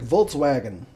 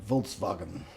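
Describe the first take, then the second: First: It is pronounced with an American English pronunciation. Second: It is pronounced with a German pronunciation. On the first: The speaker calls it wrong. "we just pronounce however the hell we want to pronounce them because Americans just do stuff like that" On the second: The speaker calls it right. "it's actually Volkswagen because it's German"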